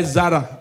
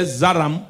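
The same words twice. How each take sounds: First: Said in the usual way. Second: "Zaram" with an m on the end; mispronounced Zara. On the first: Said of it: "Zara is spelled Z A R O A". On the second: Retold or imitated. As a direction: close "Zaram" on a hummed m. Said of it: "It don't end with M".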